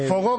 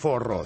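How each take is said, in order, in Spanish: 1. La consonante del medio es un sonido suave tipo h. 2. La consonante del medio es una r vibrante fuerte.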